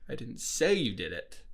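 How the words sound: The stress is on the word say.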